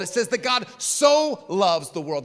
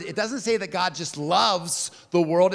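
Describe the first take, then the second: First: SO stretched long and leaned on; slow, emphatic SO before "loves"; stress on SO. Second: "just loves" stated, LOVES drawn out; slow down on LOVES, no punch on "just"; stress on LOVES. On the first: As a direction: hit the word SO, then hold it. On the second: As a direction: set up the contrast with a drawn-out LOVES. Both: Shown as a demonstration. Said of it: "the emphasis with that extra word".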